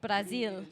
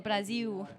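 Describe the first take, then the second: First: It is said with a Portugal Portuguese accent. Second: It is said with a Brazilian Portuguese accent.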